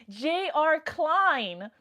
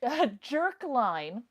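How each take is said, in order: First: "J R Klein" slowly, initials spelled out; correct name. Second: "Jerkline" run together as two syllables; misread name. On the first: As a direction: separate "J R Klein" into two letters and a surname. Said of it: "His name is J R Klein". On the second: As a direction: say "Jerkline" as one word, jerk-line. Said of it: "I thought forever his name was Jerkline". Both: Shown as a demonstration.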